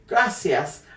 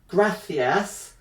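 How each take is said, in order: First: It is said with a Latin American Spanish accent. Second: It is said with a Spain Spanish accent. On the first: "Spanish as spoken in Latin America" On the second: "Spanish as spoken in Spain"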